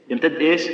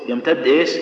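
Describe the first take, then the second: No difference in how they are said.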